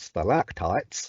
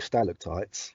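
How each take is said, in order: First: It is said in an American accent. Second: It is said in a British accent.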